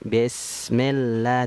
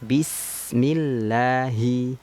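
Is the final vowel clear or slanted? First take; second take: slanted; clear. First: The final i vowel is slanted and not fully formed. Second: The final i vowel is clear and fully formed. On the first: The speaker calls it wrong. "Vokalnya i, jangan miring, jangan bismillah" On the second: The speaker calls it right. "tapi bismillahi"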